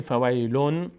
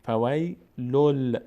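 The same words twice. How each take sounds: First: فویلون ending in a clear n; فویلون with a plain final n sound; unmerged nun. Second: فویلل with the final sound a held ل; slow recited فویلل ending in a long l; merged lam. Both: Shown as a demonstration.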